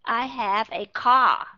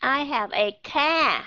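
First: Car said slowly with a rounded O, kʰɔ; correct O vowel. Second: Car said slowly with a flat Vietnamese A, kʰa; wrong A vowel. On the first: Teacher giving students the correct vowel, slow model. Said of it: "nó rõ ràng là âm O". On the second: Teacher mimicking students' mistaken vowel, slow mock reading. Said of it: "vẫn đọc là we are". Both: Shown as a demonstration.

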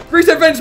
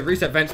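First: Reset vents yelled high and loud; panicked callout. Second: Said in the usual way. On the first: Real, not acted. Gamer panicking under attack, shouts reset vents.

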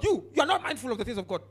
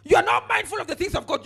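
First: Said in the usual way. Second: Forceful, louder rebuke of the crowd. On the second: Acted. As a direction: preach it as a sharp scolding. Preacher rebuking the congregation.

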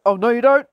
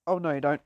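First: Loud playful objection; loud warning. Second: Low, soft playful warning; quiet warning. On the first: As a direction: call out to stop the opponent. Stopping an opponent in game. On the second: Repeats the warning under the breath. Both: Pretend.

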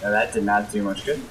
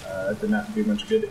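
First: Said in the usual way. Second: Muttered unvoiced aside; under the breath. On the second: Real, not acted. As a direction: mutter it to yourself.

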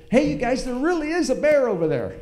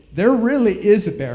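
First: High, loud urgent warning repeated; urgent insisting call. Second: Louder, higher, pleading shout; loud desperate shout. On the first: Warning the disbelieving family again, high urgent call. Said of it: "And I said". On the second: Third warning to the family, loud desperate shout. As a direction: shout it so they finally believe you. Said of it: "I said". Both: Retold or imitated.

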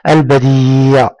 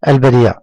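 First: البديع slowly, with a very long ee; drawn-out madd. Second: البديع said briskly, ee kept short; quick reading. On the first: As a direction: hold the ee of البديع steady. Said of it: "مد بالياء". (مدّ الياء طويلًا في البديع) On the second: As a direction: read البديع quickly without stretching it. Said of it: "أنا أنطق الكلمات بسرعة". (نطق البديع بسرعة دون مدّ) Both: Shown as a demonstration.

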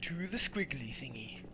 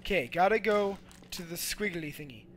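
First: Whispered, softer echo of the line; whispered repeat to himself. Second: Said in the usual way. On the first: Acted. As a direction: hush it like a sneaky secret.

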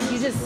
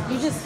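No difference in how they are said.

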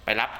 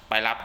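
No difference in how they are said.

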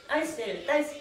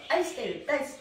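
No difference in how they are said.

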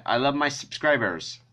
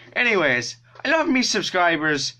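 First: Said in the usual way. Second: Higher-pitched bad Irish accent; Jacksepticeye. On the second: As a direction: say it in a put-on Irish lilt. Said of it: "very bad Jacksepticeye Irish accent".

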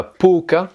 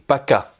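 First: Poka read letter by letter with an O, higher and louder; wrong reading poka. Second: Paka with an A sound and stress on the final ka; correct paka. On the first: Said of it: "c'est pas poka". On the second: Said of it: "mais paka". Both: Shown as a demonstration.

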